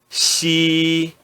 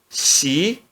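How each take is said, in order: First: The pitch stays high and level. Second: The pitch rises from mid to high. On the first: "no primeiro tom" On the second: "No segundo tom"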